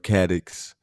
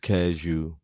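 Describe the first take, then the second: First: The name ends with a 'ks' sound. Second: The name ends with an 'oo' sound. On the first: This is how the spelling suggests it is said. "it's spelled Caddox" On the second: This is how locals say it. "if you're from Detroit, it's Cashew"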